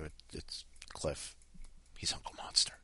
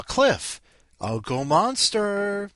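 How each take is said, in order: First: Whispered confidential aside; hushed warning. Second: High, loud, drawn-out call; rousing announcement. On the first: Host warning newcomer Madra about Cliff, whispering. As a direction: lean in and whisper it like a secret. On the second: Host introducing Cliff by nickname, calling out high and loud. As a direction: hail the next guest, stretching "Monster". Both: Pretend.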